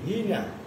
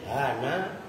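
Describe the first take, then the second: First: The vowel after h is i. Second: The vowel after h is a. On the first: "membaca kasroh hak" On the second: "dengan dibaca fathah haknya"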